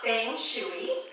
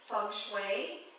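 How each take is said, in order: First: It is read the English way, from spelling. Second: It is said the Chinese way, authentically. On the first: The speaker calls it wrong. "it's not feng shui" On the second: The speaker calls it right. "I do my best to pronounce it authentically"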